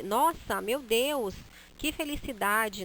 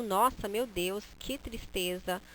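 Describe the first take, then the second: First: Happy exclamation. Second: Sad exclamation. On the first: Teacher showing a happy Nossa, meu Deus. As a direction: exclaim with delight. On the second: Teacher showing a sad Nossa, meu Deus. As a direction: sigh it out sadly. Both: Shown as a demonstration. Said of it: "a forma como a gente pronuncia é que vai dar a ideia".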